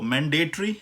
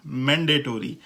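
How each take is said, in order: First: मैंडेटरी as man-day-tree, rising; British pronunciation. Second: मैंडेटरी as man-day-tor-ee, falling; American pronunciation. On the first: Teacher compares both mandatories, British pronunciation. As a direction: squeeze मैंडेटरी to a tree ending. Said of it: "British pronunciation में वो है". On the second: Teacher compares both mandatories, American pronunciation. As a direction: open out tory in मैंडेटरी. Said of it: "American pronunciation में". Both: Shown as a demonstration.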